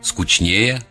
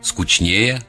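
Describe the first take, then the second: First: It is said with the Petersburg pronunciation. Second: It is said with the Petersburg pronunciation.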